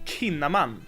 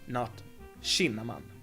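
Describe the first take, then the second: First: The name begins with a hard K sound. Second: The name begins with an SH sound. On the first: The speaker calls it right. "But actually, his name is" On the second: The speaker calls it wrong. "I usually get an sh sound"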